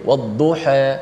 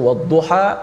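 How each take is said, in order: First: The final vowel falls between 'a' and 'i'. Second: The final vowel is a plain open 'a'. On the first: "dia baca antara atas baris bawah tu a i, di tengah-tengah tu ada taklil" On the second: "Kita baca wadduha"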